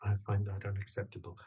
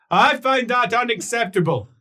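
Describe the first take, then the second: First: Low, very soft, quick delivery; hushed, lowered refusal; quiet objection. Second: High, loud outburst; raised, indignant shout; loud objection. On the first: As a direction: object under the breath. Same line, first taken low. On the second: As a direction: call the objection out forcefully. Same line, then called out loudly. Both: Acted.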